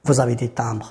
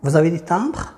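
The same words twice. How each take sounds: First: Said in the usual way. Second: "timbres" climbing at the end; question intonation. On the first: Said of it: "سي ديكلاراسيون". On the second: Shown as a demonstration. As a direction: make it a question with a rise on "timbres". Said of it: "كتسمى كيسيون باغ انتوناسيون". (نبرة سؤال، الصوت طالع في "timbres")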